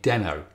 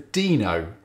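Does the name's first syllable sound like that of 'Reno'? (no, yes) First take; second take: no; yes. First: The first vowel differs from the one in 'Reno'. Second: The first syllable sounds like the one in 'Reno'. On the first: "being British, I started calling it Deno" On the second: "it's spelt the same as Reno in Nevada"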